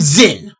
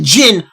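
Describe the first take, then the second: First: The name begins with a Z sound. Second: The name begins with a J sound. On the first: The speaker calls it right. "There is a fucking Z there" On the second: The speaker calls it wrong. "everyone's calling him Jin"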